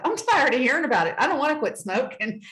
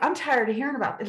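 First: Stamp your foot at it, half in jest; mock angry outburst. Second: Mild, fast grumble of complaint; a touch of irritation; mildly fed up. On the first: Telling God off, in a hammed-up fed-up protest. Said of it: "Like, here's me to God". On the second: Retold or imitated. Talking back to God, mildly fed up. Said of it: "I get mad. I'm like".

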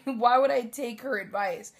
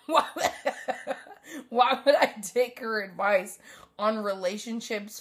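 First: Said in the usual way. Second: Laughing through the question; giggling disbelief while asking. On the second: Real, not acted. Laughing about mom's advice.

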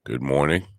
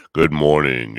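First: Said in the usual way. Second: Louder, punchy good morning; high energy greeting. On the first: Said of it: "bring up the energy". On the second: Shown as a demonstration. Radio host greeting listeners with a loud energetic morning. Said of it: "Yeah, bring up the energy".

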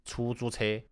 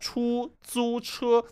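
First: 出租车 said with the flatter mother-tongue tones; mother-tongue pronunciation. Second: 出租车 with steep Mandarin tones, higher and slower. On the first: Contrasting home dialect with Mandarin, mother-tongue 出租车. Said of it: "in my mother tongue, we say". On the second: Showing the Mandarin way, steep rising and falling 出租车. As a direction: exaggerate the Mandarin tone swings on 出租车. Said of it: "'cause in Mandarin, it's like". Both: Shown as a demonstration.

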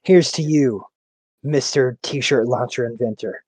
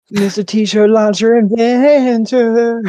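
First: Measured, low-key commercial announcer; slow, deliberate ad-style toast; beer commercial announcer. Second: High, drawn-out jingle singing; sung, belt it like a commercial's backing singer; sung commercial refrain. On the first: Friend recalls a favorite beer commercial, measured announcer read. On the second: Friend echoes the beer ad's backup singer, sung high. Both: Retold or imitated. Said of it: "Fucking Budweiser commercials".

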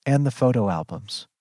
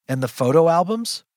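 First: "and the photo albums" stated evenly, falling away; flat delivery. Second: Higher, rising disbelief; incredulous question. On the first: Mother lists what she lost, flatly stating it. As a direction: list it with little feeling. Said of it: "She says flatly". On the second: Child repeats mother's absurd list, incredulous and rising. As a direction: query it as if it makes no sense. Baffled echo of mother's words. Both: A narrator's reading.

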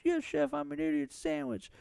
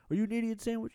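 First: Meek woman. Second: Furious chef. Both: Retold or imitated.

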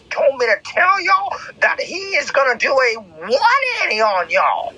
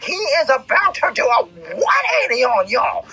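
First: Raised, rising preacher voice; preaching. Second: High, shouted preacher's cry; preaching shout. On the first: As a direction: build up the announcement. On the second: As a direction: proclaim it at the top of your voice. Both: Acted. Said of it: "I'm gonna say that again".

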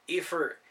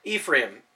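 First: "Ephra-" cut off mid-word; stumbling pronunciation. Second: "Ephraim" said in full as EE-free-um; corrected pronunciation. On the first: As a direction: break off "Ephra-" unsure how it goes. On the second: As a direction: repeat "Ephraim" carefully after the correction. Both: A narrator's reading.

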